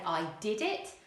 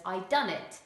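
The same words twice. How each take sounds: First: Said in the usual way. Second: "I done it" said casually, louder; non-standard English. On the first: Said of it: "Standard English, we would say". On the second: Shown as a demonstration. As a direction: drop into casual dialect for "I done it". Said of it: "if you use non-standard English".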